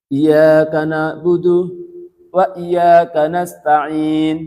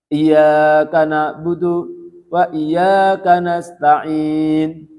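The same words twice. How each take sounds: Both takes have the same delivery.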